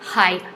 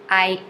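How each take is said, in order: First: It starts with a breathy H sound. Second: It starts with a vowel, no H sound. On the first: The speaker calls it wrong. "not ... hi" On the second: The speaker calls it right. "notice that I did not pronounce the H"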